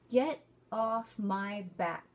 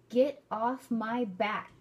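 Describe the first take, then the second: No difference in how they are said.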